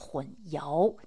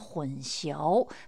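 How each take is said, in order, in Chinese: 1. 第二个音节念 yao。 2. 第二个音节念 xiao。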